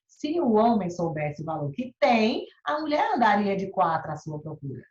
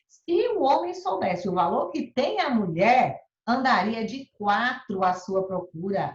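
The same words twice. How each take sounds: First: The pause comes after 'tem'. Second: The pause comes after 'mulher'.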